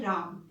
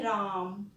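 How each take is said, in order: First: Said in the usual way. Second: राम with the आ stretched long; राम, its आ held about three beats; drawn-out राम. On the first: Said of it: "generally हम राम बोल देते हैं". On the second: Shown as a demonstration. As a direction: pull the vowel of राम out, slow and held. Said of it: "लंबा खींचते हुए बोलते हैं राम".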